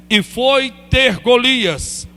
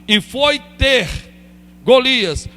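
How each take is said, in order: Both takes have the same delivery.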